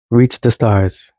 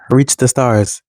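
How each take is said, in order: First: Slower, each word weighted; slow, deliberate reach the stars; slow emphatic repeat. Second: Said in the usual way. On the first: Acted. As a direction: let it sink in as a final urging. Urging younger brothers and sisters on.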